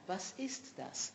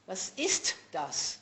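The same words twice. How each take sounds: First: The words flow together smoothly without breaks. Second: The words are chopped apart from each other. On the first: The speaker calls it right. "It has to flow further" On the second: The speaker calls it wrong. "Not that, uh, that they say"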